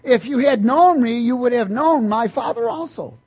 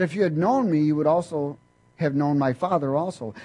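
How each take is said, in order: First: Loud, high ringing scripture proclamation; preacher booming the verse to the congregation; preaching at full force. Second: Said in the usual way. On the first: Acted. Preacher proclaiming the verse loudly to the church.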